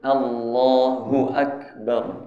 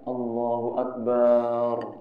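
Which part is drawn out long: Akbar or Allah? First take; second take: Allah; Akbar. First: Only the vowel in 'Allah' is drawn out long. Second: The final syllable 'bar' is drawn out long. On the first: The speaker calls it right. "yang panjang Allah-nya aja. ... Itu yang betul" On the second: The speaker calls it wrong. "Bar-nya juga jangan panjang. ... Salah"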